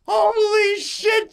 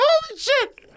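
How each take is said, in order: First: Very slow, much higher, falling squeal; drawn-out squeal. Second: Quick, much higher squeal rising at the end; excited squeal. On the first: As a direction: stretch it out in awe, slowly. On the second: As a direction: shriek it in happy disbelief. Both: Retold or imitated. Excited at the working scooter.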